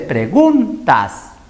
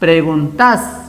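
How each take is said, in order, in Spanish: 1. El acento está en la penúltima sílaba. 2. El acento está en la última sílaba. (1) "Se dice preguntas" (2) "No se dice"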